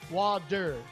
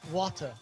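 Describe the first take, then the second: First: The middle sound is a soft D. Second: The middle sound is a clear T.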